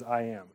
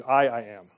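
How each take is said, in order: First: Said in the usual way. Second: Doubled emphatic "I, I am" as in the Greek. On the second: Shown as a demonstration. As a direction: repeat "I, I am" with weight on the doubled I. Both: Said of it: "It's an emphatic".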